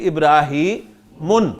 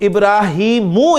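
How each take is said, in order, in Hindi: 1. शब्द के आखिर में n की आवाज़ है। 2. शब्द स्वर पर खत्म होता है, n नहीं। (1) "दो पेश डालेंगे" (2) "इसकी डबल हरकत हटाऊं तो इब्राहीमू इस्तेमाल होगा"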